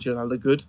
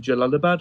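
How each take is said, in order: First: Jalalabad said his own way, set against the usual one; a personal twist on Jalalabad; his own pronunciation. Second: Jalalabad said the common way, each syllable plain; the standard Jalalabad, before correcting himself; usual pronunciation. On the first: Host gives his own pronunciation of Jalalabad. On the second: Host names the city Jalalabad in the usual way. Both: Shown as a demonstration. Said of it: "I call it Jalalabad".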